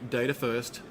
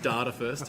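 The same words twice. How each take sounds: First: It is said in an American accent. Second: It is said in a non-American accent. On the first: "you'll notice I used an American accent with that" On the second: "not data first"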